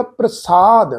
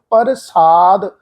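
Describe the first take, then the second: First: ਪ੍ਰਸਾਦ as "pra-saad", P and R blended; correct joined pronunciation. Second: ਪ੍ਰਸਾਦ as "par-saad", vowel between P and R; wrong split pronunciation. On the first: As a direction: blend the R straight onto P in ਪ੍ਰਸਾਦ. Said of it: "ਰਾਰਾ ਅੱਖਰ ਮਿਲ ਕੇ pronounce ਹੋਏਗਾ". (ਪ੍ਰਸਾਦ ਵਿੱਚ ਪੱਪਾ ਤੇ ਰਾਰਾ ਮਿਲਾ ਕੇ) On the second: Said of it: "ਇਸ ਢੰਗ ਨਾਲ ਉਚਾਰਨ ਨਹੀਂ ਕਰਨਾ". (ਪ੍ਰਸਾਦ ਨੂੰ "ਪਰ-ਸਾਦ" ਵਾਂਗ ਬੋਲੋ) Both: Shown as a demonstration.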